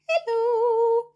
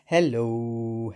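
First: It is said in a high voice. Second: It is said in a low voice.

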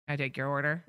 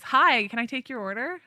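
First: It is said flatly, without pep. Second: It is said cheerfully, with pep.

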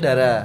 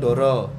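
First: The word's vowels are pronounced as a. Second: The word's vowels are pronounced as o. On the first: This is the Ngapak dialect pronunciation. "Ini ngomongnya Dara. Macane o dadi a" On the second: This is the standard Javanese pronunciation. "Afdol mau bengi ngomong Doro"

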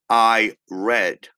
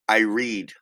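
First: The vowel in 'read' is short, like 'red'. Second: The vowel in 'read' is long, like 'reed'. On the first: The action happened in the past. "if you use it in the past... the pronunciation is I read. Red, como rojo" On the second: The action happens in the present. "If you use it in the present"

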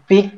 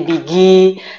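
First: The word ends on the consonant g. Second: An extra i vowel follows the final g. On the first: "enggak bisa pakai huruf mati di belakang" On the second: "big itu jadi bigi"

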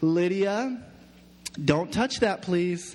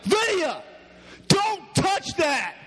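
First: The voice sounds gentle and sweet. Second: The voice sounds harsh and stern. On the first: A nice, patient parent is speaking. "Like the nice parent that would be like" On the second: A strict, short-tempered parent is speaking. "I'm not like that at all. I'm like"

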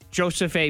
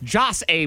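First: The first name is said as two syllables. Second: The first name is said as one syllable. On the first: "But I believe it is Joseph A" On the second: "because it's Joss A"

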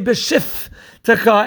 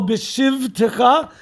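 First: The middle consonant is an f sound. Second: The middle consonant is a v sound. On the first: The speaker calls it wrong. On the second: The speaker calls it right.

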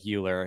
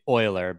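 First: The name is pronounced as English spelling suggests. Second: The name is pronounced the German way. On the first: The speaker calls it wrong. "even though it looks like Euler" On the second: The speaker calls it right. "technically Euler"

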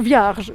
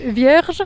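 First: The vowel sounds like an 'a'. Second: The vowel sounds like an 'e'. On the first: "tylko Vierge, czyli to się zamienia na to A" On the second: "nie mówisz Vierge"

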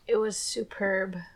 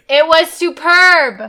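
First: It is said quietly. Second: It is said loudly.

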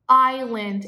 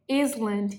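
First: No s sound is pronounced in the middle. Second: An s sound is pronounced in the middle. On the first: The speaker calls it right. "É como se esse S não existisse" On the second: The speaker calls it wrong. "muitas pessoas leem o quê?"

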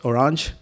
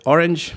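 First: The word is pronounced the French way. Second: The word is pronounced the English way. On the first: "it's orange in French" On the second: "you could call it orange"

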